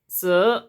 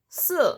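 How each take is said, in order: First: The syllable is said in the second tone. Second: The syllable is said in the fourth tone. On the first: "the second sound is si" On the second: "the fourth sound"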